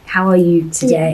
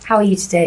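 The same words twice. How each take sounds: First: It is asked in a caring, sincere way. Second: It is asked in a quick, casual way.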